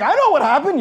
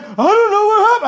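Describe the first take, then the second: First: Higher-pitched, emphatic comeback; exasperated retort. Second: Very high, loud mimicked bewilderment; hammed-up helpless wail of a baffled member; mock cluelessness. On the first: Acted. Pastor answering the baffled church member, exasperated retort. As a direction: answer the clueless member as if it were obvious. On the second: Pastor mimicking member after guests walk out, mock cluelessness.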